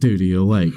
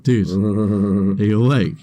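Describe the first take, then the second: First: It is said in an ordinary speaking voice. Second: It is said in a put-on character voice.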